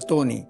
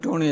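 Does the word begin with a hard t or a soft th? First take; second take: soft th; hard t. First: The word begins with a soft th sound. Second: The word begins with a hard t sound. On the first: The speaker calls it right. "അല്ല തോണി" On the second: The speaker calls it wrong. "ടോണി അല്ല"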